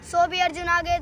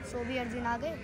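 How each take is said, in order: First: Bold, full-voiced declamation; forceful recital. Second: Soft, low verse lead-in; hushed recital. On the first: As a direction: declaim it like a challenge. Forceful repeat of verse. (बुलंद स्वर में चुनौती भरा पाठ) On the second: Acted. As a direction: recite it quietly, held back. Soft first take of verse. (धीमे, नीचे स्वर में)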